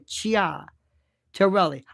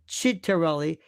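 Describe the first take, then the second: First: The name begins with a two-vowel 'chee-ah' sound. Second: The name begins with a short 'chit' sound. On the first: This is how the spelling reads. The speaker calls it right. "It's C I A, which is Cha or Chia Torelli" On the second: This is how the man says his own name. The speaker calls it wrong. "he goes by the name Chittarelli"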